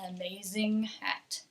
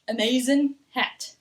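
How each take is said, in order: First: The final g of amazing is clearly pronounced. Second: The final g of amazing is dropped. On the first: The speaker calls it right. "We will keep the G in that word" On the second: The speaker calls it wrong. "I would never say an amazing"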